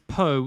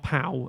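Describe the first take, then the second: First: The vowel is a plain 'oh' sound. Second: The vowel is a gliding 'ow' sound. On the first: The speaker calls it right. "it's Po" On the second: The speaker calls it wrong. "not Pow"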